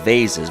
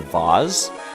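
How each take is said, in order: First: It uses the everyday pronunciation of the word. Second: It uses a fancier, posher pronunciation of the word. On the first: This is how the word is normally said. "I guess I usually go for vases" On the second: The word is said to sound classier. "just to sort of class it up a bit"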